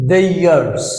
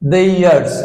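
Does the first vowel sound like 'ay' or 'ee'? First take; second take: ay; ay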